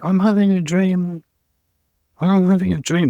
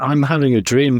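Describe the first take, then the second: First: Higher, dreamy voice of God; God dreaming. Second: Said in the usual way. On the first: Retold or imitated. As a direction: float it like God half-asleep in a dream. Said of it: "is God going". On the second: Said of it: "thing, Martin Luther King".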